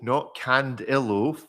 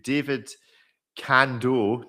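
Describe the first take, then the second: First: The name is said with an extra middle syllable. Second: The name is said with two syllables. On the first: The speaker calls it wrong. "I've been inserting an I in there" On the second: The speaker calls it right. "let's go to David Cando"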